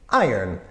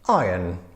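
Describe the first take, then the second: First: It is said quickly, like one blurred syllable. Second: It is said with a British accent. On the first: "The way that I personally say it is iron... sounds like one kind of messed up syllable" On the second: "the British pronunciation sounds something"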